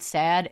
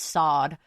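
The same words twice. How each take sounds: First: Said in the usual way. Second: "sod" as a British-accented "sad"; British accent with a rounded, open vowel in "sod". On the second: Shown as a demonstration. Vlogger showing how sad becomes sod, British accent. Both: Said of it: "a British accent onto the word sad".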